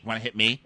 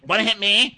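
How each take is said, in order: First: Said in the usual way. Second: High, loud mock challenge; imitating someone squaring up for a fight; shouted taunt. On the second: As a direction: yell it as a hammed-up dare. Escalated repeat of taunt.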